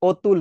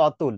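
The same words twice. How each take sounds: First: অতুল with a rounded "oh" first vowel; closed ও sound. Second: অতুল with an open "aw" first vowel; open অ sound. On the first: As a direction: say অতুল as "OH-tul". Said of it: "এটা হচ্ছে অতুল". (অতুল, শুরুতে ও-এর মতো উচ্চারণ) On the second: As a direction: say অতুল as "AW-tul". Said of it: "আমরা অতুল বলি না". (অতুল, শুরুতে খোলা অ) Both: Shown as a demonstration.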